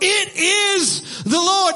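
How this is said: It is exclaimed with strong excitement.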